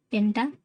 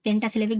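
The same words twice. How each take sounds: First: "पेंटासिलेबिक" with a long pause after "penta"; "penta", long pause, "सिले", "बिक"; slow, broken up. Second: Said in the usual way. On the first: Shown as a demonstration. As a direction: dictate "पेंटासिलेबिक" in separated chunks. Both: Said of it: "पेंटासिलेबिक भी कह सकते हैं".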